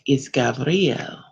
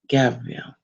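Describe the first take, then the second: First: The name is pronounced the Aramaic way. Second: The name is pronounced the usual English way.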